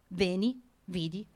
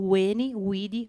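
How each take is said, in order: First: It uses the familiar modern Italian-style Latin pronunciation. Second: It uses a reconstructed classical Latin pronunciation.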